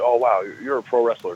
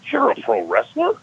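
First: It sounds impressed and admiring. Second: It sounds shocked and disbelieving.

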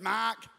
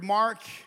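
First: The word is said in an Australian accent. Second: The word is said in an American accent. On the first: "If you're Australian" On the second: "If you're from America"

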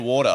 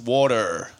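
First: The final R is dropped. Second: The final R is clearly pronounced. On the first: "We don't say R's on the end of it" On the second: "Maybe because you have hard R's"

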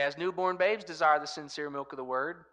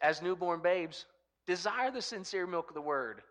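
First: It runs straight on without a pause after babes. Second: There is a clear pause after babes.

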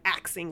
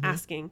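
First: The middle consonants are said as 'ks'. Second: The middle consonants are said as 'sk'. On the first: "it sounded like axing" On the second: "how this instructor corrected how she said the word asking"

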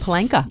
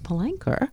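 First: The final syllable ends without an r sound. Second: The final syllable ends with an r sound. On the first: The speaker calls it wrong. "It wasn't Palenka" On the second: The speaker calls it right. "did you notice that I got the ER?"

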